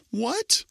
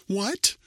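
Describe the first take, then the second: First: Even higher, louder shocked gasp; girl hears there are no chickens. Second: High, sharp shocked yelp; girl hears the well is dry. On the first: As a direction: lose your breath at the news. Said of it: "Rachel gasped". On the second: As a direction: jump at the news. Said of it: "Rachel yelped". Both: A narrator's reading.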